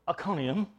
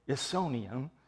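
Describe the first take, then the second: First: The C is said as a K sound. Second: The C is said as an S sound. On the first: The speaker calls it right. "It's a hard C" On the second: The speaker calls it wrong. "Do not say Isonium"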